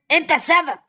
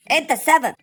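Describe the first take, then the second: First: Shouting the accusation, falling to a close; final angry blame. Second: Shouting the accusation, rising; angry blame. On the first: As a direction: slam the blame down hard. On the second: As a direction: yell the blame at him. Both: Acted. Blaming the dog loudly.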